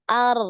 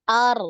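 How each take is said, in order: First: The r has a single short trill. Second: The r has a single short trill.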